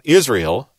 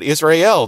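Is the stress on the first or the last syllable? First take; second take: first; last. First: The stress is on the first syllable. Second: The stress is on the last syllable. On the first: The speaker calls it wrong. "not Israel, like we tend to do it" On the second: The speaker calls it right. "We really should put the emphasis on the El"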